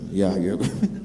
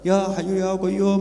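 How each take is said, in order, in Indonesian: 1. Diucapkan pelan dan lambat, tanpa tenaga. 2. Diucapkan keras, hampir berteriak, dengan tenaga. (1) "makmume malah ... Pelan-pelan" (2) "semua teriak"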